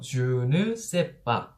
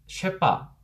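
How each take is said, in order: First: It is said fully in four syllables. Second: It is squeezed into two syllables, 'shépa'. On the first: "Je ne sais pas 라고 하는 사음절이 있습니다" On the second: "주랑 세를 합쳐서 쉐빠 ... 이음절로 줄이게 되는 거죠"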